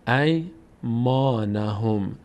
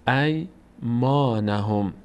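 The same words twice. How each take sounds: No difference in how they are said.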